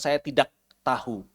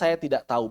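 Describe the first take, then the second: First: The k and h sounds are pronounced. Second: The k and h sounds are dropped. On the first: The speaker calls it wrong. "bukan saya tidak tahu" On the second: The speaker calls it right. "kita bacanya saya tidak tahu"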